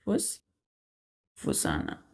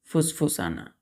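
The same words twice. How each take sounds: First: फुसफुसाना breathed very low and soft, drawn out slowly; whispered demo. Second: Said in the usual way. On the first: Shown as a demonstration. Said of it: "मतलब वो फुसफुसा रहा है". (फुसफुसाना को धीमी फुसफुसाहट में बोलें) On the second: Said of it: "word said before whispered take".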